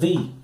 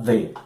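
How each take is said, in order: First: The article has its changed, pre-vowel pronunciation. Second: The article has its normal pronunciation. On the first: A vowel sound follows the article. "o the não vai ser pronunciado como o the normal" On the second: A consonant sound follows the article. "necessariamente, você vai pronunciar the"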